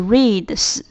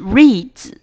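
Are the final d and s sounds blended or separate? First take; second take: separate; blended. First: The final d and s sound separate. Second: The final d and s blend into one sound. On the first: The speaker calls it wrong. "而不是reads" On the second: The speaker calls it right. "是reads z"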